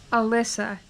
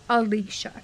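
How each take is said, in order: First: The name is said the non-Americanized way. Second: The name is said the Americanized way. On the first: "it's pronounced Al- Al- Alyssa" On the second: "I would call the main character Alicia. But apparently that's the Americanized pronunciation"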